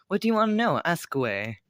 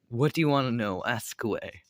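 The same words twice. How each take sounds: First: The line is said in a teasing voice. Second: The line is said in a plain voice.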